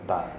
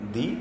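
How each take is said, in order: First: The word ends in a short 'uh' vowel. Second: The word ends in a long 'ee' vowel. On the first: The next word begins with a consonant. "যদি consonant থাকে সেই ওয়ার্ডে, তাহলে বলতে হবে দা" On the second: The next word begins with a vowel. "শুরুতেই ওয়ার্ডের শুরুতেই যদি ভাওয়েল থাকে, তাহলে বলতে হবে দি"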